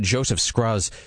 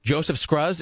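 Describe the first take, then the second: First: The name is said in a plain, ordinary voice. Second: The name is said in a put-on accent. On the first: The speaker calls it wrong. "You can't say it like that" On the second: The speaker calls it right. "it has to be said with that accent"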